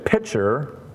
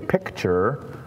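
First: The word is said without a 'k' sound: 'pitcher'. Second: The word is said with a 'k' sound: 'picture'. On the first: The speaker calls it wrong. "A lot of people say pitcher" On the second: The speaker calls it right. "but this is a picture"

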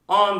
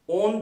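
First: The vowel is between o and a. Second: The vowel is a plain rounded o. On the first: The speaker calls it right. "Arasında bir ses" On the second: The speaker calls it wrong. "On değil. Hani 9 10'daki on değil"

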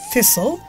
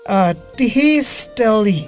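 First: The t is silent and the word ends in -sel. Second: Every letter is sounded, including t and final e. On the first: The speaker calls it right. "So the thistle" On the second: The speaker calls it wrong. "We do not say Tistelli"

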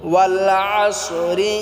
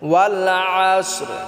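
First: The word ends with an added i vowel. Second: The word ends on a bare r sound. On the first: The reciter continues into the next verse. "আর যদি আমরা এটা একসাথে মিলিয়া পড়ি, না থামি এখানে, তাহলে এইরকমভাবে পড়ব" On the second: The reciter stops after this word. "এখানে যদি আমরা থামি তাহলে আমাদেরকে রাটাকেও সাকিন করে পড়তে হবে"

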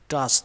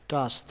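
Both takes have the same delivery.

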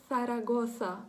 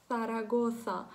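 No difference in how they are said.

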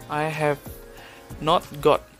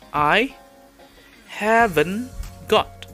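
First: Have and not are said as separate words. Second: Have and not are joined into haven't. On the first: "this is the complete sentence without contraction" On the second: "So the way you say this is"

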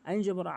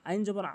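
The two takes are said the same way.

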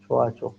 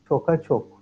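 First: The first word has a soft, lengthened vowel. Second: The first word has a hard k sound. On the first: The speaker calls it right. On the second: The speaker calls it wrong.

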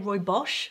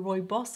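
First: The second syllable is said the Afrikaans way. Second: The second syllable is said like English 'boss'.

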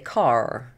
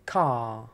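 First: The final R is clearly pronounced. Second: The final R is dropped and the vowel lengthened. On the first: "But in American English, they would say car. So they would they say the R" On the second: "in British English, ... we tend to drop the R, ... we would say car"

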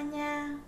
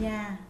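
First: The syllable is said on a level tone. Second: The syllable is said on a low falling tone.

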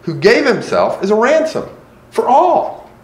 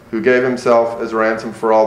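First: It is read thoughtfully, with lively expression. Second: It is read flatly, with little expression. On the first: The reader is really thinking about the passage. The speaker calls it right. "you're really thinking about the passage" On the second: The reader is unfamiliar with the passage. The speaker calls it wrong. "if it's your first time, that may be how it sounds"

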